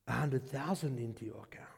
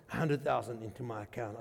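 First: Whispered, low and soft; retold whisper of big news; hushed secret. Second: Said in the usual way. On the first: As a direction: breathe it like a secret. Husband's hushed news of the gift.

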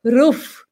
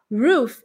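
First: ROOF with a hard R, no tongue curl; strong unrounded R opening ROOF; Eastern European R. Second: Untapped, curled R opening ROOF; tongue-curl R. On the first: Retold or imitated. Teacher imitates Eastern Europeans, hard R. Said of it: "o pessoal do leste europeu". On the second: Shown as a demonstration. Teacher gives standard roof, curled R. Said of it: "voltinha na língua".

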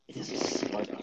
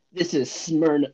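First: Whispery raspy announcer voice. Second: Said in the usual way. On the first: Shown as a demonstration. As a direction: rasp it out like a trailer voice. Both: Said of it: "like, a raspy voice".

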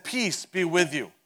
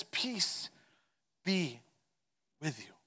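First: Said in the usual way. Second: Soft, slow and spaced, fading away gently; tender greeting. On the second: Acted. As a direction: let each word settle to calm them. Jesus greets frightened room.

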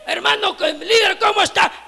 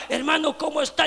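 First: Higher, louder, bursting with eagerness; upbeat pastor's hello; eager greeting. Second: Said in the usual way. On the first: Retold or imitated. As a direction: greet him like you're glad to see him. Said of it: "con ganas y sin ganas a la vez". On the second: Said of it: "alguien viene y le diga".

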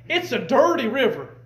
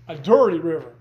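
First: Said in the usual way. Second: Low, loud "dirty river" with weight on dirty; stress on dirty. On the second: Shown as a demonstration. Preacher to congregation, pressing "dirty" low and loud. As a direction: lean hard on "dirty" in "A dirty river".

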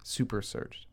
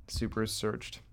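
First: "Super searched" breathed as a soft whisper; a whispered aside of "Super searched"; whispered echo. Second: Said in the usual way. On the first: Real, not acted.

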